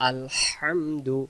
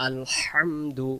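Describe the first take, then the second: The two takes are said the same way.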